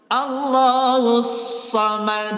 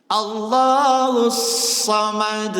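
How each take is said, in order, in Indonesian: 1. Bunyi 'sa' diucapkan dengan bibir tidak membulat. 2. Bunyi 'sa' diucapkan dengan bibir tidak membulat.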